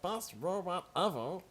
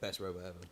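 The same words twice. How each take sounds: First: It is said in a squeaky put-on cartoon voice. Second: It is said in a normal speaking voice.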